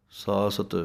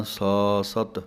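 First: ਸਾਸਤ said as one smooth word, no break; joined pronunciation. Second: ਸਾ ਸਤ broken into two separate parts, ਸਾ then ਸਤ; wrong split syllables. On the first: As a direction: run ਸਾਸਤ together, sa-sat joined. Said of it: "ਜ਼ਿਆਦਾ ਨਖੇੜ ਨਹੀਂ ਕਰ ਦੇਣਾ". (ਸਾਸਤ ਜੋੜ ਕੇ ਸਹੀ ਉਚਾਰਨ) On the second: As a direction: pause between ਸਾ and ਸਤ as the wrong way. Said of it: "ਇੱਦਾਂ ਨਹੀਂ". (ਸਾ ਸਤ ਟੁੱਟਵਾਂ ਗਲਤ ਉਚਾਰਨ) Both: Shown as a demonstration.

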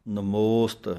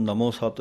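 First: ਨਮੋਸਤ said as one word, nəmost; the correct reading ਨਮੋਸਤ; joined word. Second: ਨਮੋ ਸਤ broken into two words; the mistaken reading ਨਮੋ ਸਤ; wrong split. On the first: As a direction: bind ਨਮੋਸਤ together without a break. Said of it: "ਇਸ ਤਰੀਕੇ ਨਾਲ ਬੋਲਣਾ ਹੈ". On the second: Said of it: "ਨਹੀਂ ਕਹਿ ਜਾਣਾ". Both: Shown as a demonstration.

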